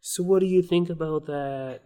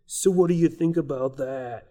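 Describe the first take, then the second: First: Put-on retry of a Boston accent, more from the back of the throat; Boston accent pulled further back in the throat. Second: Put-on first try at a Boston accent, a bit shifted; attempted Boston accent, not quite there. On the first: Host retries his Boston accent after the guest's tip. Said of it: "like a back of the throat". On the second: Host tries a Boston accent on the guest. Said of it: "that's my Boston accent".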